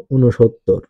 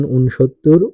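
First: ঊনসত্তর as "u-no-shottor", falling; spoken pronunciation. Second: ঊনসত্তর as written, "un-shottor", rising; spelling reading. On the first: Teacher demonstrates pronunciation, ঊনসত্তর as "u-no-shottor". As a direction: add an o after the n in ঊনসত্তর. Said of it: "উচ্চারণ". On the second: Teacher reads out a number's spelling, ঊনসত্তর as "un-shottor". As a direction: say ঊনসত্তর with n straight into sh. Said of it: "বানান". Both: Shown as a demonstration.

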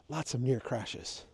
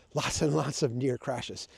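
First: Slow down and weigh the word near; stress on near. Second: Lots and lots slowed, with near weighted; slow, deliberate, underline near; stress on near. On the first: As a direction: lean on near, slow and softer. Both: Shown as a demonstration. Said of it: "Emphasis on the word near".

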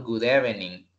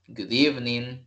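First: "evening" in three syllables, eh-veh-ning; mispronounced evening. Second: "evening" in two syllables, EEV-ning; correct evening pronunciation. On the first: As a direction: say "evening" with short e's and an extra middle vowel. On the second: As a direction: say "evening" with long ee and no middle vowel. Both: Shown as a demonstration. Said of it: "no decimos".

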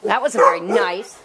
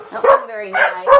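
First: Said in the usual way. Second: Much higher, sing-song scolding of the dog. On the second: Real, not acted. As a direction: raise the voice up high to chide.

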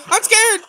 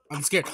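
First: "scared" yelped high and loud. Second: Said in the usual way. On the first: Real, not acted. Gamer panicking mid-match, yelping "I'm scared!". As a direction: suddenly squeal "I'm scared!" in real fright.

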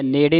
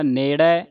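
First: ਨੇੜੇ ending in a narrow closed 'ay'; wrong reading. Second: ਨੇੜੇ ending in open 'ai', ne-rai; correct reading. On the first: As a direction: say ਨੇੜੇ with a tight last vowel. (ਨੇੜੇ, ਲਾਂ ਵਾਲਾ ਉਚਾਰਨ) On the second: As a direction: open the last vowel of ਨੇੜੇ. (ਨੇੜੇ, ਅੰਤ ਵਿੱਚ ਦਲਾਵਾਂ ਨਾਲ) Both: Shown as a demonstration. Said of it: "ਨੇੜੇ ਨਹੀਂ ਪੜ੍ਹ ਦੇਣਾ".

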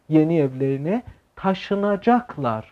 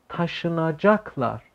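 First: Slow, deliberate reading of yeni evlerine taşınacaklar. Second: Taşınacaklar drawn out very slowly, syllable by syllable, softer; very slow pronunciation. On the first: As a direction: lay out the sentence slowly for learners. (خواندن آهسته جمله) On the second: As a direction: spell out Taşınacaklar slowly for the class. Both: Shown as a demonstration. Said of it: "به جای taşıyacaklar میگه taşınacaklar".

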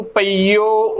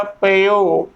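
First: ਪਈਓ as pa-ee-o; long ee. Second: ਪਈਓ as short pe-o; no long ee in ਪਈਓ, pe-o; short vowel. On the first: Teacher reading the first verse line, ਪਈਓ with long ee. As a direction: lengthen the ee in ਪਈਓ. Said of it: "ਉਚਾਰਨ ਕਰਨਾ ਹੈ". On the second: Teacher reading the next verse line, ਪਈਓ as pe-o. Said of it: "ਉੱਥੇ ਈੜੀ ਨੂੰ ਸਿਹਾਰੀ ਹੈ". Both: Shown as a demonstration.

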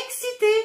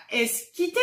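First: "excité" said clearly with ks; correct pronunciation. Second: "esquité" said with an s-k sound instead of ks; wrong pronunciation. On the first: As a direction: model "excité" carefully, ks sound. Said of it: "c'est excité". ("excité" prononcé correctement avec ks) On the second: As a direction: mispronounce it as "esquité", s then k. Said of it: "c'est pas esquité qu'on dit". ("esquité" prononcé avec s-k au lieu de ks) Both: Shown as a demonstration.

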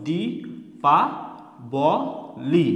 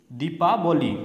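First: দি, পা, ব, লি with a clear pause after each; four isolated beats: দি … পা … ব … লি; syllable by syllable. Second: Said in the usual way. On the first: Shown as a demonstration. Teacher counting sounds for learners, দি, পা, ব, লি said separately. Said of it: "কতবার উচ্চারণ হলো?". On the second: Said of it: "এইভাবে".

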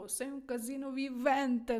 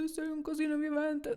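First: Admiring tone. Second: Sei un casino vivente pitched high with accusing tune on «casino»; reproachful intonation. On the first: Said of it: "ще може означати... неймовірною енергією". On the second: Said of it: "з таким наголосом, з такою інтонацією". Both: Shown as a demonstration.

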